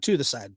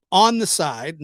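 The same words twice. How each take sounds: First: Said in the usual way. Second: "on" hit harder, rising; stress on ON. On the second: Shown as a demonstration. Vlogger correcting himself, stressing on not to. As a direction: punch "on" in "on the side". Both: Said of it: "not to the side".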